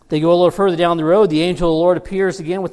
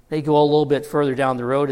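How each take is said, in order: First: Louder and fast, losing patience; exasperated buildup. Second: Said in the usual way. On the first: Shown as a demonstration. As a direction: push it, louder and faster, fed up. Third time, exasperated retelling.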